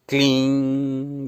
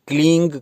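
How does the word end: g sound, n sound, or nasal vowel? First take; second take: nasal vowel; g sound. First: The word ends in a nasal vowel only. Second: The word ends with a g sound. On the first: The speaker calls it right. "यानी इसमें म और ग का उच्चारण ना हो" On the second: The speaker calls it wrong. "कई लोग क्लींग करके"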